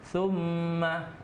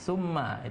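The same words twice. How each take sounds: First: The doubled m is held long and nasal. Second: The doubled m is short with little nasal hold. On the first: The speaker calls it right. "Jadi summa" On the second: The speaker calls it wrong. "bukan summa, itu berarti kurang uh, dengung"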